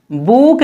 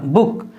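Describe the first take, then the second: First: "बुक" with the oo drawn out, like "boook"; wrong long oo. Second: "बुक" with a short, quick oo; correct short oo. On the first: Teacher showing how not to read book, long drawn-out "बुक". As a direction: stretch the vowel in "बुक". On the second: Teacher correcting the long reading of book, short "बुक". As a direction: cut the vowel in "बुक" short. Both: Shown as a demonstration. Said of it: "बुक नहीं होगा".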